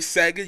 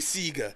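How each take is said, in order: First: The name is said without the Oceanian pronunciation. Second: The name is said with the Oceanian pronunciation. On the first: "you wouldn't say Sega" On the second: "if you're in Oceania... you say Sega"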